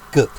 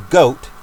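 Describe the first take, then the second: First: Goat clipped short with a short oo vowel, like goot; Germanic way of saying goat. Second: Said in the usual way. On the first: Shown as a demonstration. Preacher showing his listeners the Germanic sound of Goat. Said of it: "That's how they say it". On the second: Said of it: "they say goat this way".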